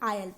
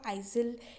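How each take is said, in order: First: The word is said without an S sound. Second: The word is said with an S sound. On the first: The speaker calls it right. "इसको हम आयल पढ़ते हैं" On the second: The speaker calls it wrong. "एस का pronunciation तो इसमें included होता ही नहीं है"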